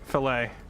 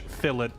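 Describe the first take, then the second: First: The word is said in an American pronunciation. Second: The word is said in a British pronunciation. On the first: "If uh, American" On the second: "if British"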